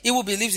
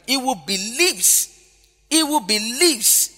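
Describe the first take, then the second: First: Said in the usual way. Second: Very slow, stretched "believes"; stress on believes. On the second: Shown as a demonstration. Preacher repeating John three to the congregation, drawn-out "believes". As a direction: dwell on "believes", rising high then falling. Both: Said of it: "believing is the emphasis".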